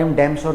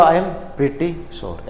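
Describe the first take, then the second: First: Said in the usual way. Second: "I am pretty sure" said very slowly, each word apart; teacher modelling the right phrase slowly; slow correct model. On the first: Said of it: "नहीं बोलना चाहिए". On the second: Shown as a demonstration. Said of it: "सही क्या".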